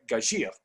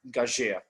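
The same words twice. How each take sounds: First: The last vowel sounds like the 'u' in pur. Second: The last vowel sounds like the 'eu' in heure. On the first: The word is built from gager plus the ending ure. The speaker calls it right. "etymologically the correct pronunciation should be" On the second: The spelling eu is read as one vowel. The speaker calls it wrong. "more and more producing uh, wrongly the word gageure"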